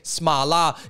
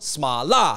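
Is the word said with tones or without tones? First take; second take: without tones; with tones. First: The word is said plainly without tones. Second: The word is said with Chinese tones. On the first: "You'll have no trouble saying Smala" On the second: "If you want to say it with the tones"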